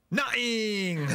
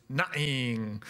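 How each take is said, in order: First: Put-on high, loud little boy's nothing; the boy answering Santa with a cheeky shout; cheeky kid. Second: Said in the usual way. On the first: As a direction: blurt Nothing! like a cheeky toddler. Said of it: "looks around and goes". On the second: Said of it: "One of his favourite words was".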